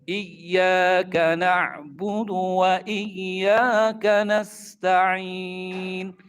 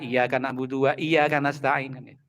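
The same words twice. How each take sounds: First: The doubled consonants are held longer. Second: The consonants are said short, not doubled. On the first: The speaker calls it right. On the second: The speaker calls it wrong.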